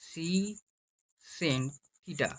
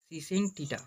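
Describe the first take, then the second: First: Secant theta drawn out very slowly, se-cant; full word secant. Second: Said in the usual way. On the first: Shown as a demonstration. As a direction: stretch secant slowly for the class. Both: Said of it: "সম্পূর্ণ উচ্চারণ হচ্ছে secant".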